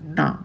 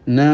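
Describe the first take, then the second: First: The syllable sounds blocked, without nasal resonance. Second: The syllable has a normal nasal resonance.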